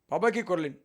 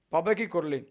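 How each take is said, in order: Both takes have the same delivery.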